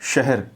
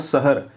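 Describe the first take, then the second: First: The first consonant is a clear sh sound. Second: The first consonant is a plain s sound. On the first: The speaker calls it right. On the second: The speaker calls it wrong.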